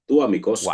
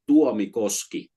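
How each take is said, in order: First: The name is said at a normal speed. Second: The name is said slowly and deliberately.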